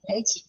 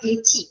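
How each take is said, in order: First: The first syllable is said like 'lie'. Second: The first syllable is said like 'lee'. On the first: The speaker calls it right. "ലൈച്ചിയാണേ" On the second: The speaker calls it wrong. "Not ലിച്ചി"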